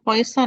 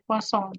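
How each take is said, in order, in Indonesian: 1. Namanya terdengar seperti kata Inggris 'poison'. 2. Namanya diakhiri dengan vokal sengau gaya Prancis. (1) "Jangan poison" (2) "dibacanya sengau ya"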